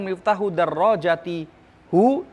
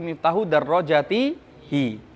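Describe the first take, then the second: First: The final pronoun is said with a u vowel. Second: The final pronoun is said with an i vowel. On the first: The speaker calls it wrong. "bukan mengatakan" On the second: The speaker calls it right.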